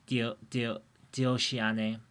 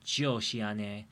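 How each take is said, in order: First: The word begins with a D sound. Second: The word begins with a J sound. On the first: The speaker calls it right. "it's actually more of a D sound than a J sound" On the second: The speaker calls it wrong. "I was pronouncing it like Jioshiane"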